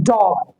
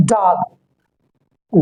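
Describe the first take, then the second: First: डॉग with a rounded short o; डॉग said British, rounded lips; British dog. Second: डॉग slowly with an open aa; American dog. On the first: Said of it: "British के हिसाब से". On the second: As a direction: stretch डॉग toward dahg. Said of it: "American के हिसाब से". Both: Shown as a demonstration.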